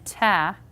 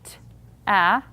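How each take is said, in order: First: The two sounds are blended smoothly. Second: The two sounds are said apart. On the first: "and ta" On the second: "the difference between saying t, a"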